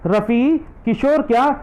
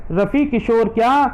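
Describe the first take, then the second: No difference in how they are said.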